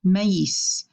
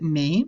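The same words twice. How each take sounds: First: "maïs" in two syllables, ma-EES; "maïs" as mah-eess, final s heard; separated vowels. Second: "mais" as one syllable, like "may"; "mais" rhyming with English "may"; wrong one-syllable version. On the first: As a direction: split A from I in "maïs" and sound the s. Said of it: "we wanna pronounce it maïs". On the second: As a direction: say "mais" with A and I merged, s silent. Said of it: "We don't wanna pronounce it mais". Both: Shown as a demonstration.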